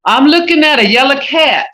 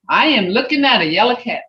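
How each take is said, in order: First: Looking stressed, louder and higher; emphatic example. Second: Said in the usual way. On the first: Shown as a demonstration. Teacher reading an example sentence, stressing looking. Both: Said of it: "See how this subject is over here".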